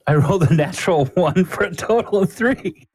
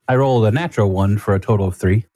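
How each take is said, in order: First: Much higher pitch, laugh breaking in; incredulous at your own terrible luck; laughing disbelief. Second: Said in the usual way. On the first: Real, not acted. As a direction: report it in high, laughing dismay. Same disastrous roll a second time.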